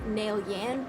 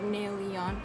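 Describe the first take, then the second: First: The final syllable sounds like 'yan'. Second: The final syllable sounds like 'yon'. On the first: The speaker calls it wrong. "it's spelled like Yan, ... but you don't say it that way" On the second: The speaker calls it right. "you say it Nail-yon"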